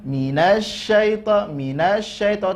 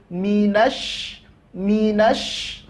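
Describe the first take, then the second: First: Minasyaito with no weight on the syin; wrong unstressed minasyaito. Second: Minash with the sy held and pushed; pressed syin in minash. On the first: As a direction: glide past the tasydid of minasyaito. (minasyaito tanpa tekanan, salah) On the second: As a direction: lean on the sh of minash. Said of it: "nah, tekan". (minash dengan syin ditekan) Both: Shown as a demonstration.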